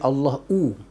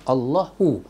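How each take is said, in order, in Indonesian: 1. Ia berakhir dengan tambahan bunyi w. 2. Ia berakhir dengan bunyi hu biasa, tanpa w. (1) "Jangan bunyi Allahu. Kalau Allahu bermakna waw" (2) "Kita sebut ha, baris depan, hu"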